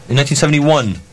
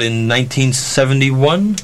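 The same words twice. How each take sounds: First: "seventy-one" falling, settled; confirming fall. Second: "seventy-one" rising as if unsure; questioning rise. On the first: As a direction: confirm the year, letting "seventy-one" drop. Confirms the year to himself. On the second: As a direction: check the year, lifting "seventy-one" into a question. Checking the year aloud. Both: Real, not acted.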